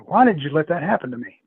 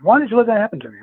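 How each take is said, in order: First: Mildly accusing question; retold reproach. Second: High, loud accusing question; retold louder reproach. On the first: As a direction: demand an answer, still fairly contained. Retold upset woman waking up. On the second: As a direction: imitate an alarmed, insistent demand. Retold upset woman repeats demand.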